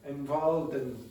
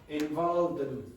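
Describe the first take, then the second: First: The word 'in' is reduced and linked. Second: The word 'in' is reduced and linked.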